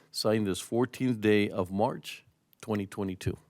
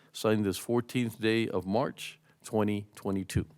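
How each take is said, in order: The two takes are said the same way.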